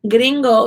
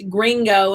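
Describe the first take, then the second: First: It is pronounced with Spanish sounds. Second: It is pronounced with English sounds. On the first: "in Spanish" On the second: "in English"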